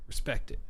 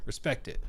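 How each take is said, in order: Both takes have the same delivery.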